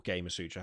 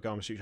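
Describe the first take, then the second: First: Gamer Sutra with GAY-muh, long 'ay' in Gamer; alternative pronunciation. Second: Gama Sutra with GAH-ma, long 'ah' in Gama; alternative pronunciation. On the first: Podcaster second-guessing a website's name, trying Gamer Sutra with 'ay'. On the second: Podcaster unsure of a website's name, trying Gama Sutra with 'ah'. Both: Shown as a demonstration. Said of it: "have you pronounced it".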